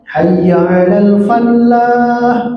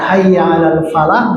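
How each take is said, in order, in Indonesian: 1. Huruf l di falah digandakan dan ditahan. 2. Huruf l di falah pendek dan tunggal. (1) "Iya mah ditasydidkeun" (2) "mari kita menjemput kemenangan"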